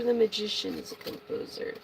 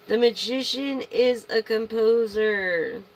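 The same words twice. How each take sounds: First: Said in the usual way. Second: "The Magician is a composer" said slow and louder; slow emphatic repeat. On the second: Shown as a demonstration. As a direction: lean on every word of "The Magician is a composer", slowly. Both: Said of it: "repeats for emphasis".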